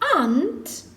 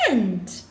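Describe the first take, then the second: First: It is said with a broad 'ah' vowel. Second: It is said with a flat 'a' vowel.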